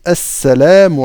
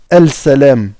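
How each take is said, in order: First: The L merges into a doubled S sound. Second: The L is pronounced separately before the S. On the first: The speaker calls it right. "On dit Assalamu alayka" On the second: The speaker calls it wrong. "On ne dit pas Al-salam"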